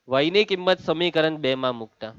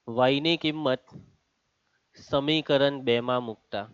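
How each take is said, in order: First: Said in the usual way. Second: Slow, softer and lower, broken by a pause; slow dictation. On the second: Real, not acted. Teacher repeats the step for students writing, slow dictation. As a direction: dictate it in two spaced pieces.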